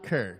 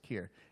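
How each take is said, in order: First: The name has the vowel of 'Kerrville'. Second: The name has the vowel of 'ear'. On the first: The speaker calls it wrong. "It's not Kerr, because I see Kerr and I think Kerrville" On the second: The speaker calls it right. "so it's Kier"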